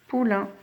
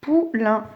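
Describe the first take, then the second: First: Said in the usual way. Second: Poulain as pou... lain; split into syllables. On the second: Shown as a demonstration. Teacher helping pupils count, Poulain in two pieces. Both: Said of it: "Combien y a de syllabes dans poulain?".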